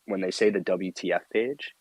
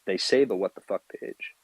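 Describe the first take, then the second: First: "W T F" said as three separate letters, double-u, tee, ef; spelled out W T F. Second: "what the fuck" spoken as the full words, not letters. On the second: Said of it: "yes, it means what the fuck". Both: Shown as a demonstration.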